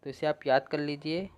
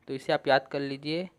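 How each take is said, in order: Both takes have the same delivery.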